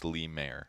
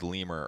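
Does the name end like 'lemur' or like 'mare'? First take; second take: mare; lemur. First: The name ends with a long 'mare' sound. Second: The name ends with a short 'mur' sound. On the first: The speaker calls it right. "It's Lemare" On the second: The speaker calls it wrong. "I thought it was lemur earlier. It's not"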